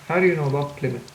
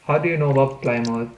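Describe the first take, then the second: First: Said in the usual way. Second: "Plymouth" said as PLY-mouth; spelling pronunciation of Plymouth. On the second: Shown as a demonstration.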